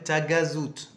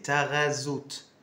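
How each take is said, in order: First: The gh is said as a hard g. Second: The gh is said like a French r. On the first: The speaker calls it wrong. "les touristes l'appellent Tagazout" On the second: The speaker calls it right. "Non, c'est Taghazout"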